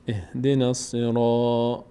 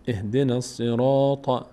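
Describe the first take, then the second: The two takes are said the same way.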